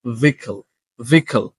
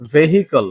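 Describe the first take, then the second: First: Vehicle as VEE-kul, h left silent; correct pronunciation. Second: ভেহিকল with a sounded h, VEH-hi-kol; common mispronunciation. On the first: Teacher gives learners the fix, correct pronunciation. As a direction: say vehicle in two falling syllables, "VEE-kul". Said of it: "সঠিক উচ্চারণটা হচ্ছে". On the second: Teacher shows how learners usually say it, common mispronunciation. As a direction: say ভেহিকল in three syllables with the h. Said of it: "যেটাকে আসলে আমরা উচ্চারণ করে বলি". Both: Shown as a demonstration.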